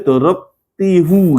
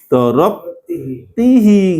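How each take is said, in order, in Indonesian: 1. Kata ganti itu diakhiri vokal 'u'. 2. Kata ganti itu diakhiri vokal 'i'. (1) "nggak boleh dorob tihu gitu" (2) "dari dorob tihi"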